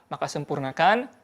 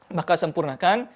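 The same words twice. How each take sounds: The two takes are said the same way.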